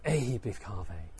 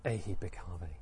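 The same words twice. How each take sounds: First: Low, steady call; firmer invitation. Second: Low, soft call; quiet invitation. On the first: Teacher trying another way the Buddha said it, firmer invitation. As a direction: say it low, with a little more voice. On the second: Teacher trying how the Buddha ordained him, quiet invitation. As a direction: say it softly and low. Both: Shown as a demonstration. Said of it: "how did he say them".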